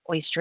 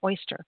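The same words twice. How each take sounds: First: The word is pronounced in a casual, slurred way. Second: The word is pronounced in a careful, standard way. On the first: The speaker calls it wrong. "It's not oyster" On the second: The speaker calls it right. "it's oyster"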